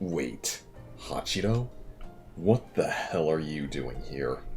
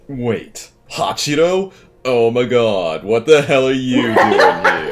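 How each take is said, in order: First: It is said in a calm, unexcited tone. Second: It is said in an excited, happy tone.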